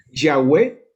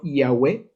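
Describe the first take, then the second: First: "Yahweh" with a hard Spanish Y onset; pronunciation variant. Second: "Yahweh" begun with a vowel, ee-ah-WEH; alternative pronunciation. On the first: Teacher presents the Hebrew name, "Yahweh" with hard Y. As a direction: say "Yahweh" in two syllables, loud first sound. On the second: Teacher shows the other pronunciation, "Yahweh" as ee-ah-weh. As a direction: glide into "Yahweh" from a clear ee. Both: Shown as a demonstration. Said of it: "o también como pronunciado".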